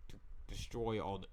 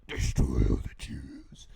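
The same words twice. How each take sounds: First: Said in the usual way. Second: Slow, very low, loud rasped whisper; villainous growl. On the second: Acted. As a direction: growl it slowly like a cartoon villain. Voicing Haman's murderous resolve.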